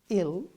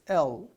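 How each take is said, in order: First: The vowel is a short 'i' like in ill. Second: The vowel is a short 'e' like in el. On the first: It means sick. The speaker calls it wrong. "so it's not ill" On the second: It names the letter L. The speaker calls it right. "it's L"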